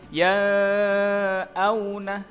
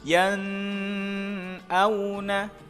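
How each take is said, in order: First: The n is obscured and barely heard. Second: The n is held with a nasal hum. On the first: "atau dibaca samar" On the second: "Contoh yang salah ketika dibaca dengung"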